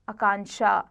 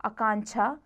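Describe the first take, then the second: First: आकांक्षा ending in ksha; correct ksh sound. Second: आकांक्षा ending in chha; wrong chh sound. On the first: Teacher corrects it, आकांक्षा with ksha. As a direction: say आकांक्षा as akanksha. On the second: Teacher shows the error, आकांक्षा with chha. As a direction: say आकांक्षा as akanchha. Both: Shown as a demonstration. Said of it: "छ और क्ष संबंधी".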